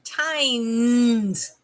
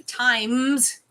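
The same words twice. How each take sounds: First: "times" said as "tines", long N. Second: "times" drawn out with a humming M. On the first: Correcting teasing viewers, "times" said with an N. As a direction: stretch "times" out with N replacing the M. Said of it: "With an N". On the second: Showing viewers what they don't say, "times" with M. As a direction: say "times" slowly, lips closed on the M. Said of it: "I don't say times. With an N". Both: Shown as a demonstration.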